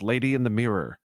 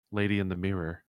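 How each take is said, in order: First: Loud, frantic kenku cry. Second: Settled, even kenku reply; calmed down. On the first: Kenku pointing at the mirror for help, frantic. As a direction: call out frantically, voice pushed louder. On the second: Kenku answering once he has calmed down, calm. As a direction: answer calmly at an everyday volume. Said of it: "He seems to calm down". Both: Acted.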